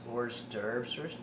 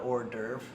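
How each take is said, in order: First: The word ends with an audible S sound. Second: The word ends without an S sound. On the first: This is the English way of saying it. "the English pronounce the S" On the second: This is the French way of saying it. "the French call it"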